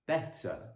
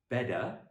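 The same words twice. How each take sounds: First: The middle t is a clear, crisp t. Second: The middle t is softened into a d. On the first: The speaker calls it right. "The last example is better" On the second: The speaker calls it wrong. "not better, as the Americans would say"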